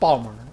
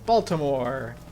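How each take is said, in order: First: The name is squashed into a short clipped form. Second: All the syllables are said out in full.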